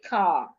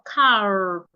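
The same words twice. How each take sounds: First: The word ends without any r sound. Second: The word ends with an audible r sound. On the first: The speaker calls it right. "I will just say car" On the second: The speaker calls it wrong. "Instead of car"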